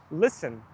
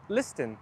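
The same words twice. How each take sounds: First: Casual "Listen" as lissen; "Listen" with silent t. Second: Over-proper "listen" as lis-ten; "listen" with sounded t. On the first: Streamer comparing word forms, t-less "Listen". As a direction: leave out the t in "Listen". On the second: Streamer imitating careful speakers, sounded t in "listen". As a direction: pronounce the t in "listen". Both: Shown as a demonstration. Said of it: "they are very proper".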